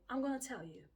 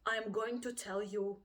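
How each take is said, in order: First: "going to" run together as "gonna"; linked speech. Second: "going to" said in full as separate words; unlinked words. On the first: Teacher showing learners connected speech, "gonna" linked smoothly. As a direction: link it casually into "I'm gonna tell you". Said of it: "or do you say". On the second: Teacher showing learners how to link, first with "going to" unlinked. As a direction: say each word of "I'm going to tell you" fully. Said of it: "how you link words. Do you say". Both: Shown as a demonstration.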